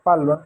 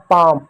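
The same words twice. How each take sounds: First: "पाल्म" में ल् की आवाज़ साफ़ बोलते हुए; बच्चों की गलती दिखाते हुए "पाल्म" को ल् के साथ बोलें; गलत उच्चारण. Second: "पाम" में ल् बिल्कुल नहीं, लंबा आ; "पाम" को बिना ल् के, आ के बाद सीधे म बोलें; silent एल. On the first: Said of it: "तो पाल्म नहीं है बच्चों". ("पाल्म", साइलेंट एल को भी ल् पढ़कर) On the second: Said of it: "आपका एल साइलेंट होगा". (सही उच्चारण "पाम", एल छोड़कर) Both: Shown as a demonstration.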